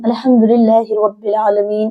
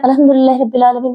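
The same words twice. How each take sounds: First: It is recited at a moderate, even pace. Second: It is recited very fast and rushed.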